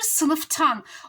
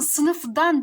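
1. Ek, ötümsüz bir t sesiyle başlar. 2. Ek, ötümlü bir d sesiyle başlar. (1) "Bunun kolay söyleyişi nedir?" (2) "sınıfdan derken zaten zorlanıyorum ben"

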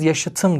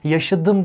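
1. Ekten önceki ünsüz t'dir. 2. Ekten önceki ünsüz d'dir.

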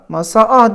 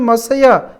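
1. İki ünlü arada ünsüz olmadan yan yana gelir. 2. Y sesi iki ünlüyü birbirine bağlar. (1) "masa A demiyorum"

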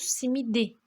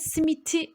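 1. Son sesliden önceki ünsüz d. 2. Son sesliden önceki ünsüz t. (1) "simidi diyoruz" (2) "simiti demiyoruz"

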